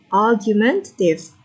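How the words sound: British pronunciation, with the R silent. "So it's silent R"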